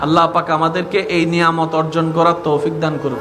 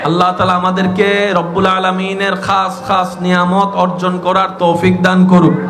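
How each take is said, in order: First: It is said at normal, softer volume. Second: It is said more loudly.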